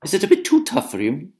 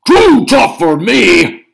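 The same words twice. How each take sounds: First: Higher, sly taunt on "too"; teasing question. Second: Loud, slow, much higher "Too tough" roar; indignant shout. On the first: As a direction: needle him about "too tough". Una teasing. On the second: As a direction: roar it back, offended. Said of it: "shouted Cucullin". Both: Acted.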